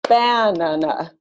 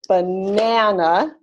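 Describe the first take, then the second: First: The stress is on the first syllable. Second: The stress is not on the first syllable. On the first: "or column four" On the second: "clapping it as column three"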